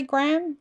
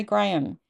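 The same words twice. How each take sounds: First: Graham said as one short syllable, gram, the American way. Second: Graham said in two syllables, gray-um. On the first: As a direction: say Graham like gram, rhyming with jam. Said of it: "do you say Graham". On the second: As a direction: stretch Graham into gray-um, the British way. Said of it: "Or do you say Graham". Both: Shown as a demonstration.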